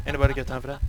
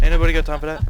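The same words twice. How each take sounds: First: Meme quote voice. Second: Loud high meme quote; meme quote shout. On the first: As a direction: repeat the meme line in a put-on voice. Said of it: "meme quote repeated". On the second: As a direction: yell the meme line. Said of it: "meme quote yelled". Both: Retold or imitated.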